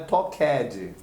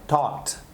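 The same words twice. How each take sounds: First: The ending is pronounced as an extra syllable. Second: The ending is a short t sound. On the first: The speaker calls it wrong. "a pronúncia não é talked" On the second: The speaker calls it right. "É talked"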